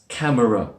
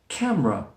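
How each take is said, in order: First: The word has three syllables with a middle schwa. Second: The word has two syllables, middle schwa dropped. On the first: The speaker calls it wrong. "I hear this one often mispronounced as camera" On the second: The speaker calls it right. "we drop that middle schwa sound to make camera"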